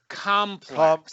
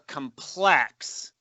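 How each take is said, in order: First: The stress is on the first syllable. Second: The stress is on the second syllable. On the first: "as opposed to" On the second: "your accent on the second syllable changes the meaning"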